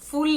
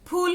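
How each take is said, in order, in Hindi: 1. शब्द 'f' ध्वनि से शुरू होता है। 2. शब्द एस्पिरेटेड 'ph' ध्वनि से शुरू होता है। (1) "फूल नहीं होता है। फूल आप कह देंगे तो अंग्रेजी भाषा का फूल हो जाएगा" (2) "फूल होता है"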